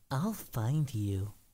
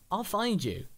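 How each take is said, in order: First: It sounds creepy and obsessive. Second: It sounds plain and friendly.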